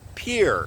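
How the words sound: The name is said like English 'pier'. This is how locals say it today. "but it's pronounced Pier"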